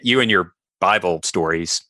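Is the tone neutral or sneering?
sneering. It is said in a sneering, snide tone. It shows contempt for the stories. "there's a totally different implication there"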